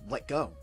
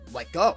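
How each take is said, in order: First: It is said politely and gently. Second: It is said sternly with attitude.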